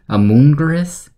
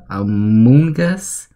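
First: "Amoonguirus" said as a questioning mispronunciation, an extra "guir" syllable in the middle; misread name. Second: "Amoonguss" said slowly and carefully, as "a-MOON-gus" with three syllables; corrected name. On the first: Reading out a leaked Pokemon name, unsure first try. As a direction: stumble through "Amoonguirus" like a first, confused attempt at the name. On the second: Correcting the Pokemon name to viewers, slow careful retry. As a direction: stretch out "Amoonguss" deliberately, testing the right name. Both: Shown as a demonstration.

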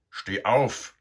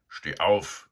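First: Much louder, higher harsh command; louder and harsher. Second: Loud call to wake him. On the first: Sow waking Eduard again, louder and harsher. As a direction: bark it harder this time. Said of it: "viel lauter und barscher als das erste Mal". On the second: Sow waking Eduard, a loud call. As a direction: bark him awake. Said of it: "sagte da eine laute Stimme". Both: A narrator's reading.

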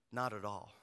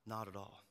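First: Said in the usual way. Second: Much softer repeat; quiet echo. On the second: Shown as a demonstration. Pastor admitting his anger to the congregation, softer. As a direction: let it fall to a murmur.

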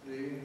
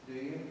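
Both takes have the same delivery.

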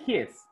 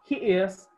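First: "his" as one contracted syllable; forma abreviada. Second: Said in the usual way. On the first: Shown as a demonstration. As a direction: merge he and is into "his". ("his" contraído en una sílaba)

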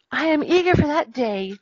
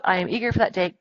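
First: Eager character voice, pitched higher; Little Mermaid. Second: Said in the usual way. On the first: Acted. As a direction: read the quote as a keen storybook heroine. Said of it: "sighed the Little Mermaid".

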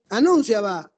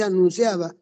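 First: "anunciaba" with the stress jumped early onto NUN; misplaced stress. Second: Said in the usual way. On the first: Shown as a demonstration. Teacher reading a nonexistent word, "anunciaba" wrongly stressed on NUN. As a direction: punch NUN in "anunciaba", a-NÚN-ciaba. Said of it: "No existe esa palabra". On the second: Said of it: "aquí no dice anunciaba".

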